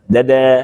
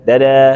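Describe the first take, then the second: Both takes have the same delivery.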